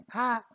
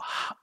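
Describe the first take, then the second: First: Breathy ha pushed up high; high whisper ha. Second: Howling wind whisper. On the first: Showing the female side of the whisper contrast. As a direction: whisper it up in a higher register. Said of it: "you know, compare those two". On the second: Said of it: "like, howling wind". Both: Shown as a demonstration.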